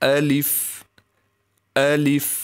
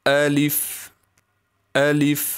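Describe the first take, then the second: No difference in how they are said.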